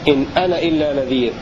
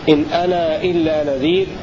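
First: The vowel of ana is not lengthened at all. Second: The vowel of ana is held for two counts. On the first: "فالقصر المقصود به عدم المد مطلقا" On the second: "هذا بمقدار حركتين"

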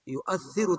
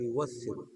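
First: A full glottal stop is heard mid-word. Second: The glottal stop becomes a long u sound. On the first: "تقول بالتحقيق للهمزة" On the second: "بقلب الهمزة واوا لانضمام ما قبلها"

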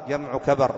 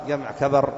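Both takes have the same delivery.

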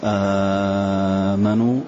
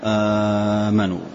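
First: The first vowel is held long. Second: The first vowel is held short. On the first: "مد" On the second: "والقصر"

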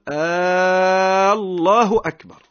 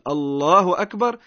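First: The first vowel of Allah is drawn out long. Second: The first vowel of Allah has normal length. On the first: It changes the meaning completely. The speaker calls it wrong. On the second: God is greatest. The speaker calls it right.

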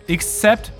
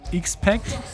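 First: The name sounds like 'except'. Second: The name sounds like 'ex-pact'. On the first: The speaker calls it wrong. "Alle drei falsch ausgesprochen" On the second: The speaker calls it right. "Wir hießen X-Pact"

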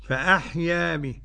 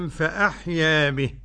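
The two takes are said the same way.

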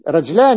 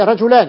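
First: The j has no vowel after it. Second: The j is followed by a short u vowel. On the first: The shortened form is used for the meter of the verse. "سكنت هنا للضرورة الشعرية" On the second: This is the regular dual form of the word. "يعني مثنى رجل"

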